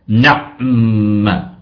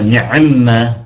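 First: No vowel follows the 'ayn' sound. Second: A vowel follows the 'ayn' sound. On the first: The speaker calls it right. "نسكن العين" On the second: The speaker calls it wrong. "لا نقول نعمة"

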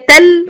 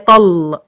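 First: Both the t and the l are light. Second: Both the t and the l are heavy. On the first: "لا هي تل" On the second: "ولا هي طل"

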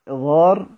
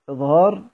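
The two takes are said the same way.

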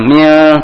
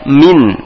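First: The word ends with an l sound. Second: The word ends with an n sound. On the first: The speaker calls it wrong. "bukan mil" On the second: The speaker calls it right. "tapi min"

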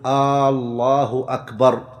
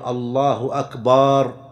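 First: The opening vowel of the first word is drawn out. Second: The vowel after b in the last word is drawn out. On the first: The sentence becomes a question. "ألا يمد الهمزة في لفظ الجلالة" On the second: The last word becomes a word for drums. "أن يمد الباء بأن يقول الله أكبر"

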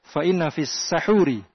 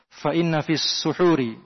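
First: The first vowel of the last word is 'a'. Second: The first vowel of the last word is 'u'. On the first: It refers to the pre-dawn food itself. "dengan di fathah" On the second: It refers to the act of eating the pre-dawn meal. "dengan dhammah"

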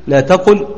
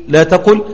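Both takes have the same delivery.

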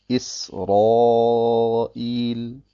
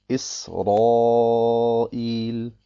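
Both takes have the same delivery.

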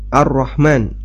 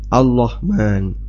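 First: The word is said with a clear r sound. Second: The r sound is replaced with an l sound. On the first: The speaker calls it right. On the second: The speaker calls it wrong.

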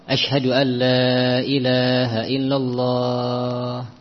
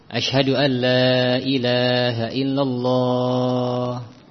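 Both takes have the same delivery.

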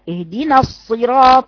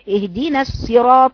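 First: The first s-sound is heavy, like sad. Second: The first s-sound is light, like sin. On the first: The speaker calls it right. "الاتنين صاد، اطلع على طول على استعلاء" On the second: The speaker calls it wrong. "بقرأ الحول الأول سين"

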